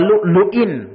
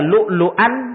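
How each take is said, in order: First: The word ends with an 'in' sound. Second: The word ends with an 'an' sound. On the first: The bracelets are made of gold and pearls. "ada yang membacanya dengan di kasrah" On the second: The pearls are something they will also be adorned with. "dibaca lu'lu'an dengan di fathah"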